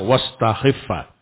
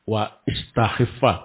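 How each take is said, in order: First: The vowel is dropped and the words link. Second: The vowel starting istakhiffa is pronounced separately. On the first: The speaker calls it right. "tapi bacanya wastakhiffa" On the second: The speaker calls it wrong. "Ya, wa istakhiffa"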